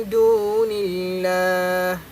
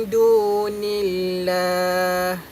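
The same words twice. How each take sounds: Both takes have the same delivery.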